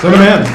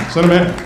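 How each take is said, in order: First: Commanding order. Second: Said in the usual way. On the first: Retold or imitated. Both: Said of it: "call going to the president".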